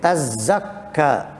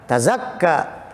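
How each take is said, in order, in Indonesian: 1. Bunyi z dobel dan dibaca lebih panjang. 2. Bunyi z pendek dan tunggal. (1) "zainya juga dibaca tasydid" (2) "Qiraah yang kita baca"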